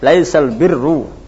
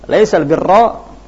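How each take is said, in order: First: The word birr ends with a 'u' vowel. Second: The word birr ends with an 'a' vowel. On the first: This is the reading of the majority of reciters. "semuanya mereka membaca dengan dhammah" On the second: This is the reading of only three reciters. "Laisal birra hanya tiga qiraah"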